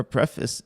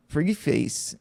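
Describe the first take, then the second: First: "preface" said as PREF-iss; short e, weak ending in "preface". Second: "preface" said as PREE-face; long ee and "face" in "preface". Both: Shown as a demonstration. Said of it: "is it preface or preface".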